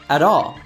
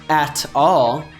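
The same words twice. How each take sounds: First: The t is a soft D sound. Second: The t is a clear T sound. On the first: "he says at all. ... it changes to a D sound" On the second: "Freddie doesn't say at all"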